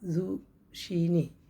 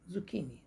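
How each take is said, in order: First: The middle consonant is an sh sound. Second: The middle consonant is a k sound. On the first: The speaker calls it wrong. "उसको लोग ज़ुशीनी होता है" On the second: The speaker calls it right. "इसको पढ़ते हैं ज़ुकीनी"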